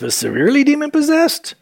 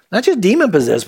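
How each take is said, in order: First: "severely" pitched high for contrast; stress on severely. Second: Said in the usual way. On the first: Shown as a demonstration. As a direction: lift "severely" high and keep the rest quick. Contrasts two degrees of possession.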